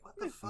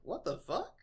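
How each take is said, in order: First: It sounds upset and appalled. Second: It sounds pleasantly puzzled and intrigued.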